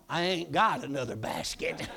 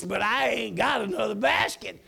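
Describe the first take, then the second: First: Said in the usual way. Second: Laughing emphasis. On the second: Shown as a demonstration. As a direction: punch "I ain't got another basket" with a laugh. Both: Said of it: "May not be proper English".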